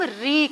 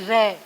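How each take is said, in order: First: The vowel sounds like 'ee'. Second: The vowel sounds like 'ay'. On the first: The speaker calls it right. "इसे हम री कहते हैं" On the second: The speaker calls it wrong. "ना कि रे"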